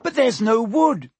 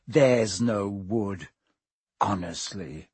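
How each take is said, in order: First: High, loud panicked cry. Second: Lower, slow mock whine of her words. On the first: Hermione crying out while wringing her hands, loud panic. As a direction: wail it in helpless panic. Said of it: "Hermione cried". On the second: Ron mimicking Hermione's panicked cry, low slow mockery. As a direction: parrot her panic back scornfully. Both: A narrator's reading.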